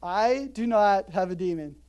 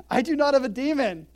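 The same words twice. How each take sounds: First: Dry deadpan rerun of Jesus' denial; understated denial. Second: Loud, high firm denial; Jesus firmly rejecting the insult, loud; emphatic denial. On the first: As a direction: repeat it dry, stress on "not". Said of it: "Biggest understatement in the Bible". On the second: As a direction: flatly refuse the charge, loudly. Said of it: "Jesus answered". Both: Retold or imitated.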